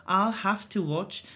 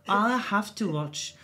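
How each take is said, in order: Both takes have the same delivery.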